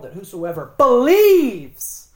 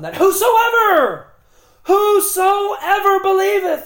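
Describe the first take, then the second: First: The stress falls on believes. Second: The stress falls on whosoever. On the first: Only those who believe are meant. The speaker calls it right. "the proper emphasis in John 3:16 is" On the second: Anyone at all is included. The speaker calls it wrong. "They like to read it like this"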